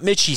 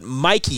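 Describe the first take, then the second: First: The middle consonant is a ch sound. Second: The middle consonant is a k sound. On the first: The speaker calls it wrong. "not Mitchie Stadium" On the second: The speaker calls it right. "But Mikey Stadium"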